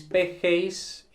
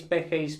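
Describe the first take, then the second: First: "P G Is" drawn out letter by letter; slow and deliberate. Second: Said in the usual way. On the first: Shown as a demonstration. Teacher repeats the form slowly for students. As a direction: stretch out "P G Is" for the class. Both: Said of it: "Luego P G Is".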